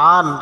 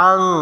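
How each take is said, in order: First: The final n is pronounced clearly with the tongue. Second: The final n is hidden as a nasal sound. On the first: The speaker calls it wrong. "এখানে আছে আন" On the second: The speaker calls it right. "পড়তে হবে আং কারণ নুন সেকেন্ডের পরে জাল আসছে"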